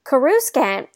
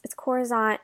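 First: Coruscant said as "KER-us-kan", sloppy r and dropped final t; child's mispronunciation. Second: Coruscant said clearly as "KOR-us-kahnt" with the final t; correct pronunciation. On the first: Young actor flubbing the planet name, Coruscant as "ker-us-kan". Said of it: "he called it Coruscant". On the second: Director coaching the boy, Coruscant as "KOR-us-kahnt". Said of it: "George went over there and he was like". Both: Retold or imitated.

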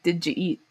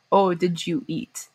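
First: "Did you eat?" run together quickly; squished together. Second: Slow, spelled-out Oh, did you eat; slow demo. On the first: Showing how Midwesterners squash it. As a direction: blur "Did you eat?" into one word. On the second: Demonstrating the full phrase slowly. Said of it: "it was like". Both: Shown as a demonstration.

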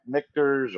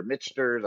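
First: "Michter's" said as MICK-ters; hard K pronunciation. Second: "Michter's" said as MITCH-ters; CH pronunciation. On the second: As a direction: say "Michter's" with a CH as in "itch". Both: Shown as a demonstration. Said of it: "not exactly sure of pronunciation".

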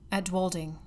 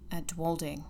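First: Said in the usual way. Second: Thoughtful echo. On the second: A narrator's reading. Host echoes the traveller's village, softly thoughtful. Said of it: "he echoed thoughtfully".

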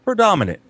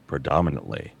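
First: Predominant said high with a falling end; word demo. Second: Predominantly said low and soft with a falling end; word demo. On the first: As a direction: lift the pitch on Predominant and let it fall. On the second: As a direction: drop the voice on Predominantly. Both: Shown as a demonstration. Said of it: "it could be the word predominant".

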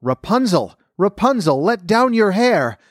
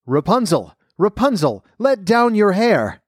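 First: Higher, calling out to her above; calling up the tower. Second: Calling up the tower. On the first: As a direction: call her name up to the tower window. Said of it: "when the prince called out". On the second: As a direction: call her name up to the tower window, stretching it. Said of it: "called out". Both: A narrator's reading.

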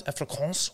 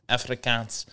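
First: South African attempt slipping into French; soft, questioning French-tinged pronunciation; French-sounding accent. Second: Said in the usual way. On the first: Shown as a demonstration. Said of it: "it gets French sometimes". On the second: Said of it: "What's that?".

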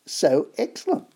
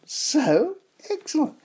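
First: Said in the usual way. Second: Much higher, gushing echo; excited. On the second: Real, not acted. Presenter gushing over the socks, excited echo. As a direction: swoon over it.

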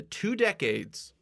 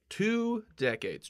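First: Said in the usual way. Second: "two" drawn out and much higher; emphatic TWO. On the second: Real, not acted. Host underlining how long it took, "two" long and high. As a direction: stretch "two" slowly for emphasis. Repeats phrase to stress its length.

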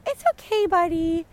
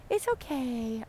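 First: High, sing-song reassurance; soothing a goose. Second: Hushed reassurance. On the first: Calming a goose that feels threatened, high cooing. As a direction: coo it like talking to a pet. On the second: Easing past a nervous goose, soft hush. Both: Real, not acted.

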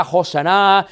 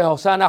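First: Hosanna said ajosana, with a throaty j before the o; the Hebrew teacher demonstrating, Hosanna with a rasped j onset; Hebrew pronunciation. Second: Said in the usual way. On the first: Retold or imitated. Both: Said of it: "¿Y cómo se dice Hosanna?".

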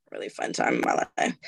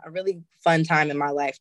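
First: Breathy whispered repeat, no voice at all; a soft whispered aside to herself; whispered echo. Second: Said in the usual way. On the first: Shown as a demonstration. Whispered echo of own line.

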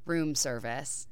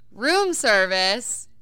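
First: Low, soft and slow; hushed, low-key movie line; understated retold answer. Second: Stretched, questioning "Room service?"; incredulous echo. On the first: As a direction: drop it quietly after a pause, acting the kid's reply. First take, [name]'s answer. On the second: Retold or imitated. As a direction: repeat "Room service" slowly and louder, as a mock query. Second take, [name] echoes it questioningly.

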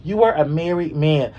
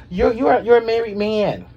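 First: "are" pressed down in a flat, firm repeat; firm, settled reproach; stress on are. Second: Higher, worked-up reproach; rising indignation; scolding. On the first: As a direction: land hard on "are". Repeats scolding line. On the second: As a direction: call him out. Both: Acted.

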